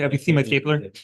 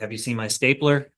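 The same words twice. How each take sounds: First: It is said in a put-on character voice. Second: It is said in his normal voice.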